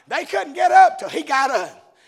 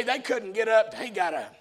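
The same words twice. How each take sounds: First: Raised, louder proclamation; emphatic preaching. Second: Said in the usual way. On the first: Real, not acted. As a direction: punch it out to the congregation. Repeats the line emphatically.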